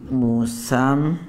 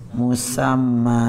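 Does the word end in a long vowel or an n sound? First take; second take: n sound; long vowel. First: The word ends with an n sound. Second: The word ends with a long vowel.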